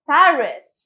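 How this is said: It is pronounced with an English accent. "but we'll say it as Paris"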